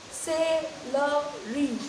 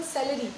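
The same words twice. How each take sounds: First: CELERY drawn out in three separate beats; syllable by syllable. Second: Said in the usual way. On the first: Shown as a demonstration. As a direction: say celery very slowly, one syllable at a time. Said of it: "number of times your jaw is dropping". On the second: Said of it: "how many syllables you have in a word".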